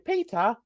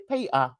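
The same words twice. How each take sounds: First: The t is said clearly, standard style. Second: The t is a glottal stop, Cockney style.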